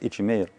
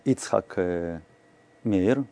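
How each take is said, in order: First: The name is said fast, parts run together. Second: The name is said in full, each part distinct.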